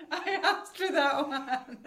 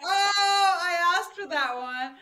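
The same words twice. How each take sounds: First: Drawn out, laughing and embarrassed; slower laughing repeat. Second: High, loud, laughing through the words; laughing embarrassed. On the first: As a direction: savour the embarrassment slowly. The same line repeated, slower. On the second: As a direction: caught out and giggling at yourself. Embarrassed reply after the naked joke. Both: Retold or imitated.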